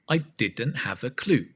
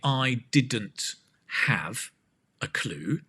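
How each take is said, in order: First: The words run together as one smooth sound. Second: The words are said separately with small breaks. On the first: The speaker calls it right. "try and say this as one sound" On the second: The speaker calls it wrong. "instead of saying"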